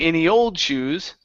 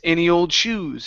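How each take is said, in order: First: The final word shoes carries no special stress. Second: The final word shoes carries strong stress. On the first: The speaker calls it wrong. "instead of saying" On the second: The speaker calls it right. "we're stressing that ending"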